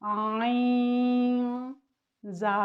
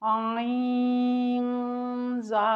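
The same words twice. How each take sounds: First: The two parts are said separately with a break. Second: The two parts are said joined without a break. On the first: The speaker calls it wrong. "इस तरह नहीं पढ़ना" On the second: The speaker calls it right. "बल्कि आपने पढ़ना है"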